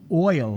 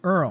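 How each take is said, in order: First: Oil is said with its standard vowel. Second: Oil is said so it sounds like earl. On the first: This is the usual way to say it. "instead of saying oil" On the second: This is how an older relative says it. "would say Earl"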